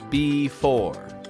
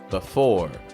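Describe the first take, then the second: First: The first vowel is a full, long sound. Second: The first vowel is a weak, short sound. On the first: The speaker calls it wrong. "I don't say it like" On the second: The speaker calls it right. "but B"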